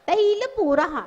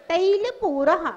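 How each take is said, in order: The two takes are said the same way.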